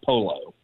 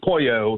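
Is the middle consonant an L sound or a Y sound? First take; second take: L sound; Y sound. First: The middle consonant is an l sound. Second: The middle consonant is a y sound. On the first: The speaker calls it wrong. "not polo" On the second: The speaker calls it right. "that's the ya sound"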